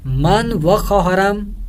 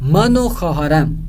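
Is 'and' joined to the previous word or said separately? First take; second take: separately; joined. First: 'And' is said separately as a full 'va'. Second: 'And' is joined to 'man' as 'o'. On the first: The speaker calls it wrong. "गलत है" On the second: The speaker calls it right. "मन व वाव को अलहदा नहीं बोलना बल्कि नून के ऊपर ही पेश डाल देंगे"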